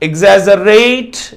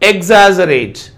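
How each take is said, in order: First: The stress is on the third syllable. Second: The stress is on the first syllable. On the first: "ఇక్కడ stress ర దగ్గర ఉంది" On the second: "first syllable పైన ఇచ్చాడు"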